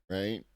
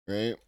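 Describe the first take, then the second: Both takes have the same delivery.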